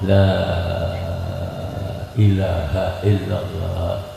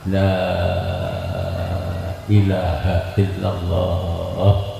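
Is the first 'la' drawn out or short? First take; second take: drawn out; drawn out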